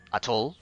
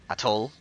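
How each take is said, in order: Both takes have the same delivery.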